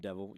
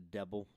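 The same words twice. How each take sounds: First: The middle consonant is pronounced as a V. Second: The middle consonant is pronounced as a B. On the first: "not even devil" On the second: "She said it with a B"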